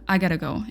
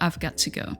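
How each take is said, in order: First: Got to is reduced and blended into gotta. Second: Got to is said fully as separate words. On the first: "You can say" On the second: "instead of"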